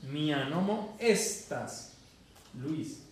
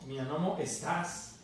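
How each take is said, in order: First: "Mia nomo estas" stressed on "no" and "es", slow; correct stress. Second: "mia nomo estás" with the stress on "tás"; wrong stress. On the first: Teacher modelling correct Esperanto stress for the student. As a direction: stress the second-last syllables, slowly. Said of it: "acento grave". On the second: Teacher showing the student a wrong stress on estás. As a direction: end on a stressed "estás", the mistake. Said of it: "Eso no es esperanto". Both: Shown as a demonstration.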